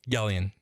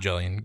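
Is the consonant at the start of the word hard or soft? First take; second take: hard; soft. First: It starts with a hard G sound. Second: It starts with a soft J sound. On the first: The speaker calls it right. "What makes you feel like it's a G sound?" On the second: The speaker calls it wrong. "not Jellion"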